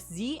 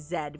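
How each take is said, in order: First: The letter is said as zee. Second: The letter is said as zed.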